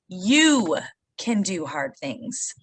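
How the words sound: The emphasis falls on the word you. The speaker calls it right. "So the emphasis is on you"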